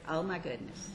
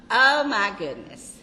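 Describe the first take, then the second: First: Low, soft exclamation; hushed, lowered aside of delight; soft marveling. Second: Loud, delighted exclamation; big burst of grandmotherly delight; emphatic gushing. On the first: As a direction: marvel under your voice. Gushing about grandchildren, first take. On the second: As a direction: gush it out loudly. Gushing about grandchildren, repeated louder. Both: Real, not acted.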